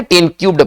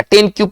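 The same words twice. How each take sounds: First: ten क्यूब्ड, with a d sounded after the b; correct reading. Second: ten क्यूब, ending on a plain b; common misreading. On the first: Teacher correcting students' reading of ten cubed, correct reading. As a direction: finish ten क्यूब्ड on a voiced bd. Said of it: "इसको पढ़ेंगे ten क्यूब्ड पढ़ेंगे". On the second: Teacher quoting how most people misread it, common misreading. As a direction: say ten क्यूब without a final d sound. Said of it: "ये ten क्यूब अगर पढ़ते हैं तो हम गलत है". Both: Shown as a demonstration.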